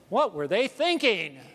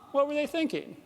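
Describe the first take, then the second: First: The tone is judgmental and dismissive. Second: The tone is open and curious. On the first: The people who did this are foolish. The speaker calls it wrong. "my brain actually says it like this" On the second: The speaker genuinely wonders about their reasoning. The speaker calls it right. "to say it with curiosity"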